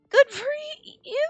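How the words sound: It ends with a rising, questioning tune. Doubtful praise that questions the remark. "Question. It's more like a question"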